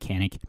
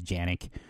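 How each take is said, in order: First: The name begins with a hard K sound. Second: The name begins with a soft J sound. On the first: This is how Americans say it. "if you're an American, we say it Canik" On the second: This is how it is said in Turkey. "I think the real way to say it is Janik"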